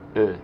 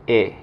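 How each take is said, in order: First: The vowel is a neutral, rounded schwa sound. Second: The vowel is a clear, slightly open e. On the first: The letter has no accent mark. "El sonido de la E normalmente en francés es E" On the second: The letter carries an accent mark. "si tiene el acento... suena como una E en español, o un poco más abierta"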